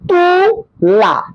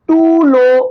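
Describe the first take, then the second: First: The word ends with an 'a' vowel sound. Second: The word ends with an 'o' vowel sound. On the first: The two vowels do not match. "একটা হচ্ছে ওকার উচ্চারিত হচ্ছে, আরেকটা কি আকার লা" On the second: The two vowels now match. "দুইটাই কি ওকারের মতো উচ্চারিত হচ্ছে"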